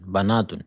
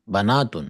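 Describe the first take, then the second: First: The first vowel is an 'a' sound. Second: The same.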